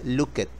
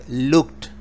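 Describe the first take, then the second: First: The ending is said as an extra syllable. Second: The ending is a plain t sound. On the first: The speaker calls it wrong. "No se dice" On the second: The speaker calls it right. "se dice"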